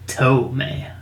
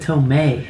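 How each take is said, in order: First: The stress is on the first syllable. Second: The stress is on the second syllable. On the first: The speaker calls it wrong. "not Tomei. ... Not Aunt Toe" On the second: The speaker calls it right. "And I said Tomei, ... Like Aunt May"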